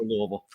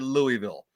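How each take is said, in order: First: Said quickly and slurred, with reduced syllables. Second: Said carefully, with each syllable fully pronounced. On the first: This is how the locals say it. "we prefer Louisville" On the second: This is how outsiders on the news say it. "If you're watching the news, you might hear Louisville"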